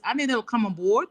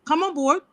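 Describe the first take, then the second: First: Said in the usual way. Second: Higher, pleading "Come on board" with a lift on "on"; urging the listeners to join, rising plea. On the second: Real, not acted. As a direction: call them in with a lifted, urgent "on board". Repeats appeal, pitched up.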